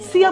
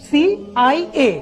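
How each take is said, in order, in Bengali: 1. এটি একটি শব্দ হিসেবে বলা হয়। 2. প্রতিটি বর্ণ আলাদাভাবে বলা হয়। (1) "সিয়া বলছি না" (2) "বলছি কি সিআইএ"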